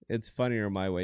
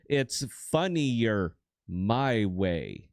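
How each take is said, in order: First: It is said at a normal speed. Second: It is said slowly and deliberately.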